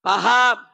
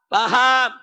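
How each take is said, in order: Both takes have the same delivery.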